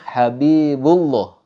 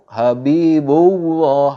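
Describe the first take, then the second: First: It goes straight into llah without w. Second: A w sound is inserted before llah. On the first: The speaker calls it right. "tapi yang benar contohnya Habibullah, Habibullah langsung pada lafaz Allahnya" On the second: The speaker calls it wrong. "di situ ada ada seperti huruf wawunya. Itu salah"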